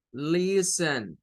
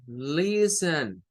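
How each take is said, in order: First: "listen." with the first syllable LIS- stressed and a falling end. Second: "listen" said slowly, first syllable LIS- stressed, the "t" silent. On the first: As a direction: model "listen." as a demo word, weight on LIS-. ("listen." con acento en LIS y entonación descendente) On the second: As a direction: draw out "listen" with the weight on LIS-. ("listen" despacio, acento en la primera sílaba) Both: Shown as a demonstration. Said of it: "la sílaba tónica está en la primera".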